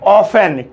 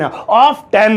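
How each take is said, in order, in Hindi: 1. t silent है; दूसरा अक्षर 'fen' है। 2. दूसरे अक्षर में t का उच्चारण होता है। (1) "टी साइलेंट है" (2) "टेन आ रहा है"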